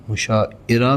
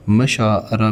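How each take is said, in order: First: مشاعرہ said as mu-sha-i-ra, with a short u and a separate i; pitched up, مشاعرہ as mu-sha-i-ra; wrong pronunciation. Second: مشاعرہ said as ma-shaa-ra, with a short a and a long aa; مشاعرہ with a long middle aa, no separate i; correct pronunciation. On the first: Teacher showing the wrong way: مشاعرہ as mu-sha-i-ra. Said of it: "درست تلفظ کی نشاندہی کیجیے". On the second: Teacher giving the right form: مشاعرہ as ma-shaa-ra. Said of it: "تو مشاعرہ is the right word". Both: Shown as a demonstration.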